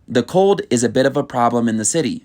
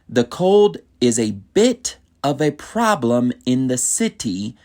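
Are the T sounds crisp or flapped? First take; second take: flapped; crisp. First: The T sounds are soft, like D sounds. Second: The T sounds are crisp and clearly pronounced. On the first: "if I were to say it normally" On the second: "Notice how I enunciate the T's in that sentence"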